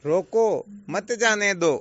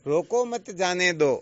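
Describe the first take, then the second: First: Loud रोको, clear stop, then मत जाने दो in one run; forceful order to stop them, split after रोको; pause after रोको. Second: Loud, slow रोको मत as one phrase, then जाने दो; comma after मत. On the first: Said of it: "केवल मात्र कोमे का ही तो अंतर". (रोको के बाद स्पष्ट विराम) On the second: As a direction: order to let them go, split after मत. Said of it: "अंतर हुआ आगे पीछे लगाने का". (मत के बाद विराम) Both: Shown as a demonstration.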